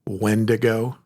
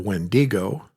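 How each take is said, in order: First: The stress is on the first syllable. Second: The stress is not on the first syllable. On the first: The speaker calls it right. "putting the emphasis on the first syllable" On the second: The speaker calls it wrong. "Other people call it a Wendigo"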